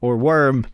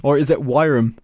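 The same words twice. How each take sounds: First: Said in the usual way. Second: "worm" as two syllables, "WY-rum"; variant pronunciation of worm. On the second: Shown as a demonstration. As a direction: say "worm" to rhyme with "siren", ending in m. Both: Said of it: "Is that how you say worm?".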